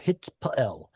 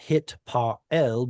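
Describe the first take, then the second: First: The middle root consonant is single. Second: The middle root consonant is doubled. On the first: The speaker calls it right. "there's a shva here, and there's no geminate" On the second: The speaker calls it wrong. "Not hit Pa'el"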